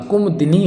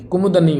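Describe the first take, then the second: First: Said in the usual way. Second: कुमुदनी as "kumud-ni", no i after d; mispronounced कुमुदनी. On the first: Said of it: "कुमुदिनी होता है". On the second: Shown as a demonstration. Teacher showing the wrong form, कुमुदनी without middle i. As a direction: drop the i before the last syllable. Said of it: "नहीं होता".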